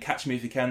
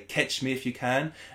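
First: The vowel in catch is an ah sound. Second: The vowel in catch is an eh sound. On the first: "instead of saying catch me if you can" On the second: "where an ah sound goes to an eh sound"

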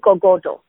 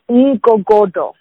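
First: The name is said without a click sound. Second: The name is said with a click sound. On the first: "you guys wouldn't say it with the click, so it would be Ngogodo" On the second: "It's a Xhosa name"

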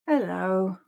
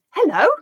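First: The word sounds sad. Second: The word sounds surprised. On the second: "say it with surprise"

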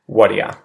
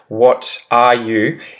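First: The words blend into one quick reduced form. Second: Every word is pronounced fully and separately. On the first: "if I were to say whatia" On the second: "always enunciate really well and say every letter in every word"

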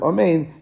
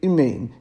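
First: The first vowel is a clear ah sound. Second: The first vowel is a short, reduced sound. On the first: The speaker calls it right. "a pasach like an ah sound" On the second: The speaker calls it wrong. "you have a chatur, which is like a shva. That's not proper"

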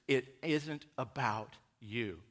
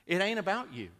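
First: It is said in his ordinary, neutral speech. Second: It is said in a Southern vernacular.

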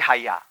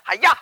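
First: The word is said calmly and evenly. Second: The word is shouted sharply like a karate cry. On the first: The speaker calls it right. "Everybody say Haya" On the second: The speaker calls it wrong. "Not Haya. Not karate"

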